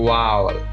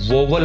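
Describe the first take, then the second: First: The first syllable sounds like 'ow'. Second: The first syllable sounds like 'oh'. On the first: The speaker calls it right. "उसकी सही correct pronunciation जो है वो है वावल" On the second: The speaker calls it wrong. "इनको वोवल मत बोलिए"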